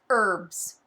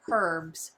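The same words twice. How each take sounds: First: "herbs" with a silent h, "erbs"; herbs without H. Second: "Herbs" with the h sounded. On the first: Host allowing for other places, "herbs" with silent h. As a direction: drop the opening h in "herbs". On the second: Host naming the cozy game theme, "Herbs" with audible h. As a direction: pronounce the opening h in "Herbs". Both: Shown as a demonstration. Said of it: "if you're from another place".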